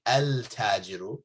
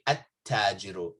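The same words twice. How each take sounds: First: Al-tajiru with a clear l before the t; wrong al-tajiru. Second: At-tajiru with no l, the t doubled; right at-tajiru. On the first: Teacher shows students the wrong al-tajiru with lam. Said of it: "you don't say al-tajiru". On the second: Teacher gives students the correct at-tajiru, lam silent. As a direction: say at-tajiru as att-tajiru. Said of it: "you say at-tajiru". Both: Shown as a demonstration.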